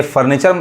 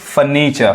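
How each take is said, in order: First: फर्नीचर with both r's sounded; common mispronunciation. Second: फर्नीचर with silent r's; taught pronunciation. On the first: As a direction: say फर्नीचर as 'far-nee-char'. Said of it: "ये फर्नीचर नहीं पढ़ाएगा". (फर्नीचर में दोनों 'र' बोलें) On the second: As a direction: say फर्नीचर as 'fuh-NEE-chuh'. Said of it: "असल उच्चारण क्या है". (फर्नीचर को बिना 'र' के 'फ़नीचा' बोलें) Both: Shown as a demonstration.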